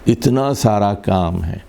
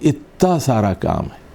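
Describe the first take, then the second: First: The first word has t followed by n. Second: The first word has a doubled t, no n.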